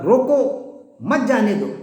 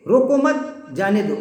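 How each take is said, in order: First: Slow روکو, clear gap, مت جانے دو as one phrase; drawn-out "روکو", then firm "مت جانے دو"; pause after روکو. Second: Raised "روکو مت", released "جانے دو"; pause after مت. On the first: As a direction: break after روکو, meaning stop them. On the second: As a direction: break after مت, meaning don't stop them. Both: Shown as a demonstration. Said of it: "لہجے کی وجہ سے".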